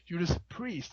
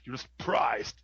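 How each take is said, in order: First: The last word ends softly, like 'priest'. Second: The last word ends harder, like 'priced'. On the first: The speaker calls it right. "it's actually Judas Priest... That doesn't sound hard enough" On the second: The speaker calls it wrong. "That's much harder"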